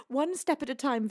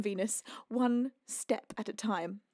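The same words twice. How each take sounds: First: Said in the usual way. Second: Slow, low and deliberate; slow self-calming. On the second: Real, not acted. Streamer talking herself down, slow and deliberate. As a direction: space it out, steadying yourself.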